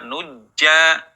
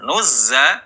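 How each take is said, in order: First: The middle consonant is a j sound. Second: The middle consonant is a buzzing z. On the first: The speaker calls it wrong. "tidak dibaca nujja" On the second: The speaker calls it right. "za ya, alirkan suaranya"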